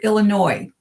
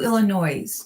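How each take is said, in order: First: The word ends without any S sound. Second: The word ends with an audible S sound. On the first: The speaker calls it right. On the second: The speaker calls it wrong.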